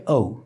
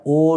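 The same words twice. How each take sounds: First: "ও" as gliding oh-oo, falling; English pronunciation. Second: "ও" as one pure o vowel; Bangla pronunciation. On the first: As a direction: round "ও" off into oo. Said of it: "এটা হচ্ছে ও". ("ও" ইংরেজি ধাঁচে ওউ) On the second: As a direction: keep "ও" unglided. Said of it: "ইংলিশে কিন্তু এটা ও নয়". ("ও" বাংলা ধাঁচে, একক স্বরে) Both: Shown as a demonstration.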